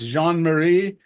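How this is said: It is said with a French accent.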